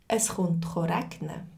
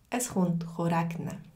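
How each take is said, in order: No difference in how they are said.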